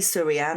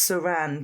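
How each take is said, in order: First: An extra 'ee' sound follows 'Sur'. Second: No extra sound follows 'Sur'. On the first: The speaker calls it wrong. "I always say Surianne and it's wrong" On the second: The speaker calls it right. "It's Suranne Jones"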